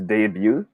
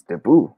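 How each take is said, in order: First: Debut as day-byoo; first option. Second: Debut as deh-boo; second option. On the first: Teacher asking for smiley votes, debut as day-byoo. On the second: Teacher asking for wink votes, debut as deh-boo. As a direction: say "debut" ending in a plain boo. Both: Shown as a demonstration. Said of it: "should we pronounce this as".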